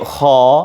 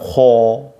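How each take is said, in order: First: The syllable is said with lips kept neutral. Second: The syllable is said with rounded, protruding lips. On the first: The speaker calls it right. "Jadi kho" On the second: The speaker calls it wrong. "bukan kho gitu, bibirnya jangan monyong"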